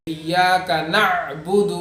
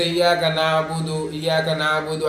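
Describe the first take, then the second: First: Slow ایاک نعبد, ain closed in the throat; deliberate ایاک نعبد, audible vowelless ain; correct sukun on ain. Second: Quick نعبد as "naa-budu"; wrong, zabar on ain. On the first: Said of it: "عین کی آواز نکالنا ہے". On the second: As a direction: slide through نعبد with an open a, no throat stop. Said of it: "ایسا پڑھ لیتے ہیں". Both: Shown as a demonstration.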